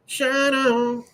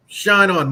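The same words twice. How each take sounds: First: A tagline tossed up high and light; high echo. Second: Slogan punched out loud; ad tagline. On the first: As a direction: repeat the slogan in a silly high voice. Tagline echoed in put-on voice. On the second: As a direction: hit the slogan like an ad closer. First take of tagline. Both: Acted.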